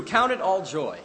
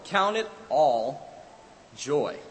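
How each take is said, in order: First: Higher, louder proclamation of the verse; proclaimed. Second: "Count it all joy" stretched slowly, word by word; slow, deliberate. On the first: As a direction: ring the verse out loud. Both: Acted. Preacher repeats verse two ways.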